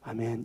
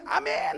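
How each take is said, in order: First: The amen is said quietly and without energy. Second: The amen is said loudly and with energy. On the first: The listeners are reluctant when told to evangelize. "다들 그냥 다 목소리가 아멘 이렇게 해버립니다" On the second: The listeners eagerly welcome a message of blessing. "막 하는데"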